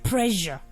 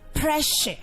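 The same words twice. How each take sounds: First: The middle consonant is not an sh sound. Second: The middle consonant is an sh sound. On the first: The speaker calls it wrong. "I have heard many people mispronounce it. Most people call that word pressure" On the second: The speaker calls it right. "The word is pronounced as pressure"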